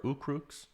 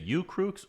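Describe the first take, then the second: First: Ooh in "Ooh Crooks" as a pure "oo"; questioning "Ooh Crooks", opening on a plain oo vowel; alternative name pronunciation. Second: U in "U Crooks" said like "you"; alternative name pronunciation. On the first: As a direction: say "Ooh Crooks" without any y-glide. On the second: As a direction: say "U Crooks" with a y-glide, "yoo". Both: Shown as a demonstration. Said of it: "am I pronouncing your name right".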